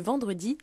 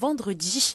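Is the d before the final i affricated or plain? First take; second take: plain; affricated. First: The d before i is a clean plain d. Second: The d before i has a hissing dz sound. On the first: "au lieu de vendredi" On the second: "dire vendredi"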